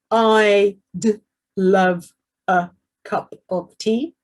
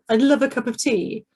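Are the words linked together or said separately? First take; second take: separately; linked. First: Each word is said separately and carefully. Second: The words run together quickly and smoothly. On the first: The speaker calls it wrong. "It's not" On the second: The speaker calls it right. "It's all brought together"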